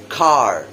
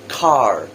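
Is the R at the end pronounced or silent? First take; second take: pronounced; pronounced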